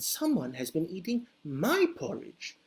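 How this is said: It is said in a medium, moderate voice. A middle-sized bear is speaking. "said Mama Bear in her medium-sized voice"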